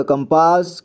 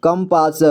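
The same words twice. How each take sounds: First: Said in the usual way. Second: कंपास split as "kam-paa-sa"; कंपास read piece by piece; sounded out. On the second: Shown as a demonstration. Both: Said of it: "इसे पढ़ेंगे".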